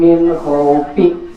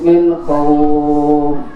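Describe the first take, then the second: First: The last word ends with an added vowel. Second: The last word ends on the consonant. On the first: The reader ignores the rule for stopping. The speaker calls it wrong. "jangan dibaca kasrohnya" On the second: The reader pauses correctly at the stop. The speaker calls it right. "Kata gurunya"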